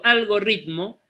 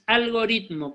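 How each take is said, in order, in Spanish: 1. La r del medio es una vibrante múltiple fuerte. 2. La r del medio es una vibrante simple. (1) "como por ahí se dice mal" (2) "Es algoritmo con R"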